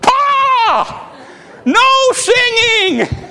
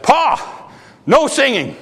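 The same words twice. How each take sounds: First: It is said in a loud voice. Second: It is said at a normal, soft volume.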